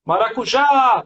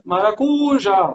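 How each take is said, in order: First: Maracujá called out with the stress landing on the last syllable; correct stress. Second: Maracujá stretched slowly with the stress misplaced; wrong stress test. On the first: Teacher finding the right stress by calling the word out. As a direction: hit the final já in Maracujá. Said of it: "tá certo". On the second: Teacher testing a wrong stress on the word, drawn out. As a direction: drag out maracujá with the wrong syllable pushed. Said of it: "Porque eu tenho que testar no grito". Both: Shown as a demonstration.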